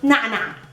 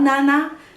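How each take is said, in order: First: The vowels start with a squeezed throat sound. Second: The vowels are plain, with no throat squeeze. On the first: The speaker calls it right. "So nana" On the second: The speaker calls it wrong. "not nana"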